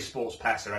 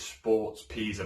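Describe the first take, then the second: First: Pesa is said with an 'eh' vowel, like Peta. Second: Pesa is said with an 'ee' vowel, like Pisa. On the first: This is the spelling-based way the speaker prefers. "I say Sports Pesa anyway" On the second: This is how local people say it. "some people say Pisa. Maybe like that's a Scouse thing"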